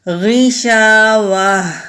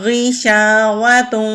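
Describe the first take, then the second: First: The word stops, ending in a soft h sound. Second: The word runs on, ending in nasalized tun. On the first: "हमने यहां पर स्टॉप किया तो ता को हा में बदल दिया" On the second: "अगर स्टॉप नहीं करेंगे तो गुन्ना करेंगे"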